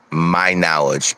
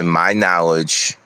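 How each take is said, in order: First: "my knowledge" repeated slowly for emphasis; emphatic repeat. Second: Said in the usual way. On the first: Real, not acted. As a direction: say "my knowledge" slowly, as a point to underline. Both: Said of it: "I wanna say this again".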